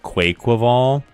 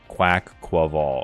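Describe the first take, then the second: First: The first syllable does not sound like quack. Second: The first syllable sounds like a duck's quack. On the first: This is the common pronunciation. The speaker calls it wrong. "everybody thought it was pronounced Quaquaval" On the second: This is the official pronunciation. The speaker calls it right. "quack, quack, like a duck"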